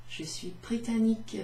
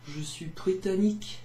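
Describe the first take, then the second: First: "Je suis britannique" in a slightly higher lady's voice; a touch of a dainty lady. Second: "Je suis britannique" in a lightly lowered mock man voice; a hint of a gruff man. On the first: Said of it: "because I'm a lady". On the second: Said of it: "That's my man voice". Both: Shown as a demonstration.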